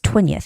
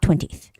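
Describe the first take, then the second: First: A schwa vowel is heard before the final 'th'. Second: The word ends without a vowel before 'th'. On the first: The speaker calls it right. "you have to make that schwa sound ... So it's twentieth" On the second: The speaker calls it wrong. "It's not twentieth"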